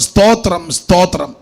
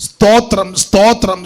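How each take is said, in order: Both takes have the same delivery.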